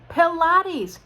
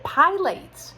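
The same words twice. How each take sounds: First: The word is said in its standard pronunciation. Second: The word is read out the way it is spelled. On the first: This is how the word is actually pronounced. The speaker calls it right. "Yeah, Pilates. Who knew?" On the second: The word was only ever seen written, never heard. The speaker calls it wrong. "for two years I read a sign ... and I called it pilates"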